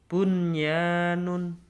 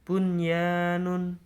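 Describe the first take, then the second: First: The n before the y is clearly pronounced. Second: The same.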